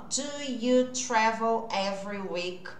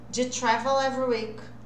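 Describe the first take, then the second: First: Do and you are said as separate words. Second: Do and you blend into one syllable, ju. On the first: The speaker calls it wrong. "não é assim que o inglês da vida real é falado" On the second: The speaker calls it right. "Do com you vira ju"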